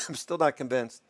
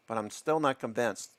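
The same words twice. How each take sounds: First: Coughing through the words after choking on coffee; coffee down the wrong pipe, coughing. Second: Said in the usual way. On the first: Real, not acted. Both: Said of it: "Coffee went down the wrong way".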